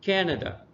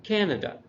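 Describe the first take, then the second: First: The stress is on the first syllable. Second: The stress is on the first syllable.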